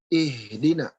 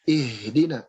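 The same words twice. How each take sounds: No difference in how they are said.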